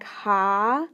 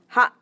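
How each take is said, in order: First: "ha" drawn out long with the vowel held; lengthened ha. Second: "ha" cut short with a quick glottal stop. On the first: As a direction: stretch the vowel in "ha" well past a normal syllable. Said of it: "a long or a lengthened sound". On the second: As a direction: snap "ha" off abruptly at the end. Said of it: "make a shorter sound". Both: Shown as a demonstration.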